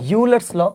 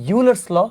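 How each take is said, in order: First: The name begins with a 'you' sound. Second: The name begins with a 'you' sound.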